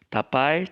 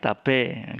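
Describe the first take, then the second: First: It ends in the diphthong ai. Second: It ends in a plain e vowel. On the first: This is the standard written form. "bahasa Indonesia tertulis tapai" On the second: This is the everyday spoken form. "Kita sering bilang tape"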